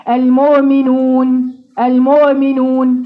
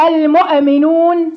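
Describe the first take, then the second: First: المؤمنون with the hamza eased into a glide, slow; softened hamza. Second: المؤمنون with the hamza jolted out like a qalqala bounce; bounced hamza. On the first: Teacher mimicking a student who eases the hamza wrongly. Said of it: "سهلتها لي غلط". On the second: Teacher mimicking a student's wrong bouncing hamza. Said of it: "واحدة تقول لك إيه؟". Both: Shown as a demonstration.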